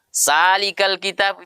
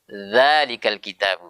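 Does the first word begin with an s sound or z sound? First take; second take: s sound; z sound. First: The first word begins with an s sound. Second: The first word begins with a z sound. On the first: The speaker calls it wrong. "terkadang orang baca sa ... itu salah" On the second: The speaker calls it right. "Harus zalikal kitab"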